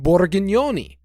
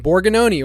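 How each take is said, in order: First: The name is said in a thick Italian accent. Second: The name is said in a plain English-style accent.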